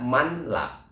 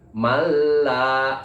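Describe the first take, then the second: First: The n sound is pronounced before the l. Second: The n sound merges completely into the l. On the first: The speaker calls it wrong. "jangan dibaca manla" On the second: The speaker calls it right. "langsung ke huruf berikutnya yaitu melebur"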